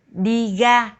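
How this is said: Ra begins with a g sound. "A lot of local people in the South will pronounce it as G"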